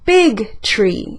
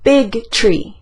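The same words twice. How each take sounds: First: The stress falls on the word big. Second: Both words carry equal stress. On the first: The size of the tree is what matters. "Voy a enfatizar la palabra big" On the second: Size and being a tree matter equally. "esas dos cosas son igual de importantes para mí"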